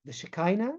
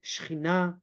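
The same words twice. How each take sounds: First: "Shekinah" in an English accent, hard k sound. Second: "Shechina" with a throaty Hebrew ch sound; Hebrew pronunciation. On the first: Teacher contrasting Hebrew with English, "Shekinah" in an English accent. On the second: Teacher naming the feminine energy in Hebrew, "Shechina" with guttural ch. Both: Shown as a demonstration. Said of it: "if you say it in an English accent".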